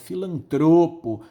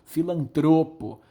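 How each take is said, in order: First: The stress is on the second-to-last syllable. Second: The same.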